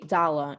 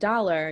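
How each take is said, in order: First: The R sound at the end is dropped. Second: The R sound at the end is pronounced. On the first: "you would drop the R sound" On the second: "instead of saying the word dollar"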